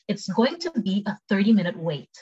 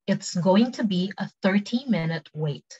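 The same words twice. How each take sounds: First: Quicker, flowing sentence; conversational model for learners; quick take. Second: Slow, clearly separated words; careful slow teaching pronunciation; slow take. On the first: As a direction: say it at everyday speed. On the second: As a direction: model it slowly for repeat-after-me. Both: Shown as a demonstration. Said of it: "cepet sama pelan".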